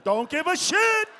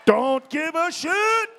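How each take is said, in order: First: Defiant. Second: Slow, loud, shouted defiance; defiant shout. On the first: Comic repeating defiantly. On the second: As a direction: yell it out slowly at the crowd. Comic repeating, shouted. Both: Acted.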